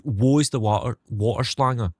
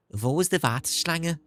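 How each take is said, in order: First: Put-on same German line in a broad Scottish accent. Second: Put-on German line in a Scouse accent, higher. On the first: Streamer tries his Scottish accent in German, Scottish accent. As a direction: roll it out Scottish, Wo is the water. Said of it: "a sentence I can say in Scottish". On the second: Streamer shows a mate's Scouse German, higher Scouse accent. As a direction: Liverpool vowels on Wo ist die Warteschlange. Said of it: "a Scouse accent sound like when speaking German".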